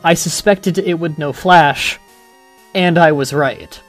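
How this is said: A full sentence break comes before 'and'.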